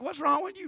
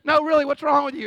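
First: Higher-pitched, asking a crying person; mildly baffled question, rising at the end; acting out a baffled man; puzzled questioning. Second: Louder, higher, pressing for an answer; acted exasperated demand; insistent questioning. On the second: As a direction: press the crier, loudly. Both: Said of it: "You're like".

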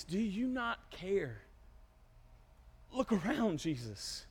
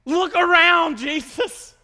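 First: Soft, drawn-out appeal; subdued plea. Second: Loud, high incredulous yell; sarcastic outburst. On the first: Disciples awakening Jesus, hushed pleading. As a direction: plead quietly, letting the name drop away. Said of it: "Awakening Jesus". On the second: Peter answering the waking Jesus, exasperated shout. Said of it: "This is where the sarcasm would ensue". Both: Acted.

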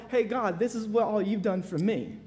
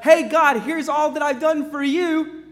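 First: Quieter, grateful and humble; humble thanks. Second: Higher, louder, proud self-display; boastful believer. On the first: Believer humbly thanking God for grace, soft. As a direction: thank God softly, no boasting. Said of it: "My hope and credentials for heaven is for". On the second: Sinner boasting to God of good works, proud. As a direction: present your works to God, pleased. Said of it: "my credentials for heaven are not". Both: Retold or imitated.

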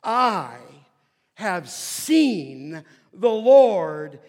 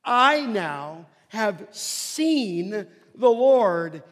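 First: Slow, loud, every word weighed; I have seen the Lord, drawn out and loud; joyful proclamation. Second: Very slow and louder, each word stretched; I now have seen the Lord, lingered over; joyful proclamation. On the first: Preacher reads Mary's announcement to disciples, slow and loud. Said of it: "now catch the language". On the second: Preacher savours Mary's words to the disciples, slow and loud. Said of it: "I love that". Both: Acted.

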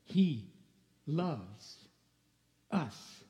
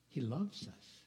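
First: He, then loves, then us, each word set apart by long pauses; deliberate repeat with a pause after every word; slow emphasis. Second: Soft, sincere declaration; tender. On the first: Shown as a demonstration. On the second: Real, not acted. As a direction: say it gently and mean it. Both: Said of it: "Can I say that again?".

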